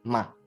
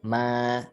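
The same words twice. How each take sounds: First: It is short and light with no set pitch. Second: The pitch stays high and level throughout. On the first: "itu nggak pakai nada ya" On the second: "ma datar ya"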